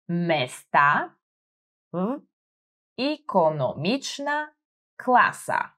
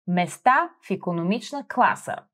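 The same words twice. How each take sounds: First: "Места в икономична класа" said slowly, each word set apart for a learner; careful slowed model reading; slow syllable by syllable. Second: Said in the usual way. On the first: Shown as a demonstration. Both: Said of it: "focusing on my pronunciation".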